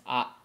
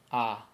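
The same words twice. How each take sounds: First: "ah" clipped with a glottal stop; abrupt vowel. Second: "ah" fading out slowly; trailing vowel. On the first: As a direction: cut the ah off sharp. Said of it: "and it stops". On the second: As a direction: let the ah trail away. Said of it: "It does not trail off like". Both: Shown as a demonstration.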